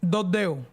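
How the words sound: It is said with a western Cuban pronunciation.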